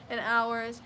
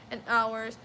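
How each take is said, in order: Both takes have the same delivery.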